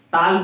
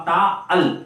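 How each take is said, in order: First: Said in the usual way. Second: "ता अल" as two separate syllables; "ता अल", one word pulled into two beats; wrongly split. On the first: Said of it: "नहीं बोल सकते". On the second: Shown as a demonstration. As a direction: break ताल into "ता अल", with a gap between. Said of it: "ताल को आप ता अल नहीं बोल सकते".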